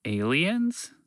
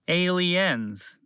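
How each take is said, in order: First: ALIENS? higher with a rising question; "Aliens" lifted at the end; questioning repeat. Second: ALIENS high, then falling firmly; "Aliens" drawn out as a statement; correcting. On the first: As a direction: echo "Aliens" as a puzzled question. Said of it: "Fred repeated". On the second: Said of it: "the creature corrected". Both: Acted.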